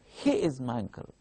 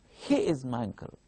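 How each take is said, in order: First: The stress falls on the word he. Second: The stress falls on the word he.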